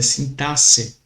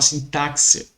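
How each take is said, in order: First: The x is said as an s sound. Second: The x is not said as an s sound. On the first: The speaker calls it right. "Mas é sintaxe. ... o X ele terá o som de S" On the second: The speaker calls it wrong. "Eu já vi muita gente falar sintaxe"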